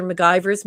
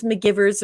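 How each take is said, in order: First: McGivers said muh-GUY-verz; long-i pronunciation. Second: McGivers said muh-GIV-erz; short-i pronunciation. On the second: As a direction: say McGivers to rhyme with "givers". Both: Shown as a demonstration. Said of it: "it's said both ways".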